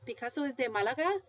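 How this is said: The voice rises at the end. The listener doubts what was just heard. "but with rising intonation"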